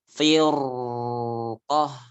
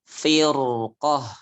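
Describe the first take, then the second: First: The 'r' sound flows out for too long. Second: The 'r' sound is held moderately. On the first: The speaker calls it wrong. "Jadi bukan firqah" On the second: The speaker calls it right.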